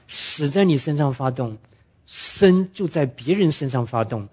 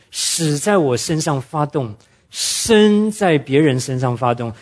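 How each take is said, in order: First: 别人 drawn out slowly and stressed. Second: Slow, weighty statement of the principle; slow emphasis. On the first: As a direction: hit 别人 with a slow, deliberate push. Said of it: "圣经上保罗特别讲". (慢慢强调"别人") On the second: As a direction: lean on each word slowly. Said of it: "这是属灵的原则". (缓慢有力地强调原则) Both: Shown as a demonstration.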